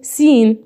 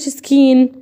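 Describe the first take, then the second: First: The word starts with a plain S sound. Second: The word starts with an S then K sound. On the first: The speaker calls it right. "اقول ايه سين" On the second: The speaker calls it wrong. "ليه ما قلتش سكين؟"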